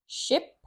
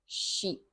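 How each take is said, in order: First: "Ship" with a short, quick i. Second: "sheep" with a long, stretched ee. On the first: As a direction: clip the vowel in "Ship". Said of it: "the first two words are ship". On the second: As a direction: hold the vowel in "sheep". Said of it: "ship and sheep". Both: Shown as a demonstration.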